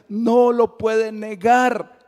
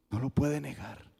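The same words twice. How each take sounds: First: Slow, higher and louder no lo puede negar; forceful. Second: Softer, dropping no lo puede negar; quiet. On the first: Preacher to the congregation, slow and ringing. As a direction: proclaim it with full conviction. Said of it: "preached refrain, strong take". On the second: Preacher to the congregation, hushed and certain. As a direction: let the truth settle, softly. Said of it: "preached refrain, quiet take". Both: Acted.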